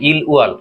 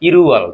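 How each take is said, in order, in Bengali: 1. দুটো অক্ষর আলাদা করে, যুক্ত না করে বলা হয়। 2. ল বর্ণটি পরের অক্ষরের সঙ্গে সহজে যুক্ত হয়ে যায়।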